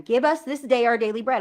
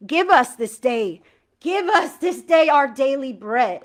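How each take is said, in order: First: Said in the usual way. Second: Slow, louder, each word of "Give us this day" pressed; heartfelt emphatic prayer line; with emphasis. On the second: Shown as a demonstration. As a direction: lean into "us" and slow the whole line. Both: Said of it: "saying these words with emphasis".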